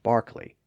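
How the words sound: The first vowel sounds like 'ar' with an R. "Brits call Darby and Barkley"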